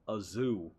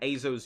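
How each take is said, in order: First: The final vowel is a long drawn-out oo. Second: The final vowel is a short plain o. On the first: The speaker calls it wrong. "that would just be wrong. Because it's a single O" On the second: The speaker calls it right. "Azo's usually how I say it too"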